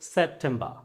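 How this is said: It is said in a British accent. "ব্রিটিশরা বলছে"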